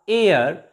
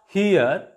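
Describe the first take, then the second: First: The word starts with a vowel, no h sound. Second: The word starts with an audible h sound. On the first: The speaker calls it right. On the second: The speaker calls it wrong. "not here"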